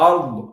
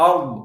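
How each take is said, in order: No difference in how they are said.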